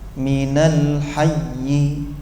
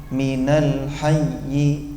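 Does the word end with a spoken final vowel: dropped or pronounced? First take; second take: pronounced; pronounced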